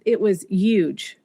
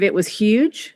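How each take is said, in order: First: Huge is said without the initial h sound. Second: Huge is said with the initial h sound. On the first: It reflects a French-speaking home influence. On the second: It is how the other children speak.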